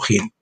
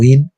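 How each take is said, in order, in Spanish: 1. La palabra empieza con un sonido aspirado, parecido a la h. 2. La palabra empieza directamente con una vocal. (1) "se pronuncia jin" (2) "no in"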